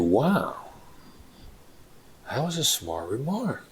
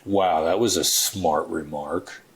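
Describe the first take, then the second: First: It sounds sincere, like a compliment. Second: It sounds sarcastic, like an insult.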